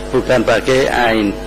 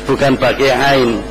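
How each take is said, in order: No difference in how they are said.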